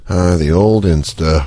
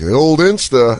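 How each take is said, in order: First: It sounds hesitant and unsure. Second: It sounds knowing and suggestive.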